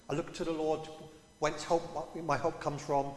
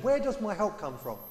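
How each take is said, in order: First: Lightly theatrical verse reading, delivered as a statement; a touch of stage-verse formality; mock Shakespearean recital. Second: "Where" pitched high and stressed, as a real question; searching question led by a high, firm "Where"; genuine question. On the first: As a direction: recite it like a line from a play. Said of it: "We turn it into a Shakespeare play". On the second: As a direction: really ask it, lifting "Where". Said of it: "No, he asks a question". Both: Shown as a demonstration.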